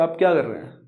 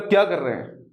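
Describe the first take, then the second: First: It is asked as a plain curious question. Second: It is said as a scolding rebuke.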